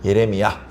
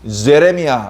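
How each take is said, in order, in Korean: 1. 이 이름은 Y 소리로 시작합니다. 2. 이 이름은 J 소리로 시작합니다. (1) "우리 성경에는 예레미야라고 기록을 했으니까" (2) "이렇게 영어 성경에 돼 있을지 몰라요"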